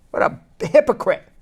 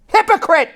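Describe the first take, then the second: First: Said in the usual way. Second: Outraged shout. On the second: Real, not acted. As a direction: spit out Hypocrite! in outrage. Repeats word, then shouts it.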